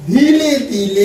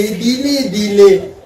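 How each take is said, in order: First: Said in the usual way. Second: Drawn-out, stretched words; very slow. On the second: Shown as a demonstration. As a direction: let it crawl to show slowness.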